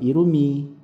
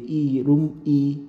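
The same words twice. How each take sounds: First: The syllables are joined smoothly together. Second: The syllables are said separately, not joined. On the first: The speaker calls it right. "ang basa ay irumi" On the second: The speaker calls it wrong. "hindi i-rum-i"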